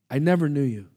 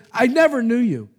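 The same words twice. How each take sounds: First: Said in the usual way. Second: Loud and high, NEVER hammered; booming divine rejection; stern rebuke. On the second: Acted. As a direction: thunder the judgment at them. Lord rejecting the false prophets.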